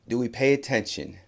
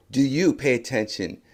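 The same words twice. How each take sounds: First: Said in the usual way. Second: "you" punched after "Do"; stress on you. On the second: Real, not acted. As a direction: turn the question on listeners by leaning on "you". Question turned on the listeners.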